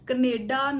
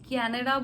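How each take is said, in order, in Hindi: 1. पहला स्वर 'uh' जैसा बोला जाता है। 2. पहला स्वर cat में 'a' जैसा बोला जाता है। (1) "नहीं बोलना" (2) "बोलना है"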